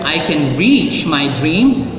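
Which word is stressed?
reach. The stress falls on the word reach. There is strength to actually achieve it. "You have the strength to reach your dream"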